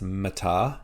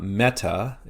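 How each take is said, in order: First: The stress is on the last syllable. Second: The stress is on the first syllable. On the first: The speaker calls it right. "Our emphasis is on the last syllable there" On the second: The speaker calls it wrong. "So it's not meta"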